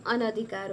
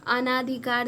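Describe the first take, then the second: First: अनधिकार with a short "na"; corrected short vowel. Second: अनाधिकार with a long "naa"; wrong long vowel. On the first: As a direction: keep every vowel before dhi short in अनधिकार. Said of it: "लेकिन अनधिकार होता है". (अनधिकार में "न" छोटा बोलें) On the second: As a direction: stretch the second vowel of अनाधिकार. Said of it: "अनाधिकार दिया हुआ है". (अनाधिकार में "ना" लंबा बोलें) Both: Shown as a demonstration.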